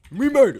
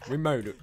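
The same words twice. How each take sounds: First: Much higher and louder victory shout; triumphant yell. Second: Said in the usual way. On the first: Acted. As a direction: scream it in triumph. Escalated celebration.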